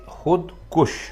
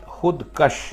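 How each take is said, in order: First: The second syllable has the vowel 'u'. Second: The second syllable has the vowel 'a'. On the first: The speaker calls it right. "आप कहेंगे खुद कुश यानी अपने आप को मारने वाला" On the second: The speaker calls it wrong. "तो ये गलत है"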